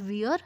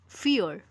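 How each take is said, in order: First: The word begins with a V sound. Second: The word begins with an F sound. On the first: The speaker calls it wrong. "Not wir" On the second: The speaker calls it right. "F ki sound"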